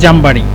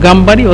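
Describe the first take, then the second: First: The word begins with a j sound. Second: The word begins with a g sound. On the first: "অথবা জামবাড়ি" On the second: "জিমকে গয়েন বলে গামবাড়ি"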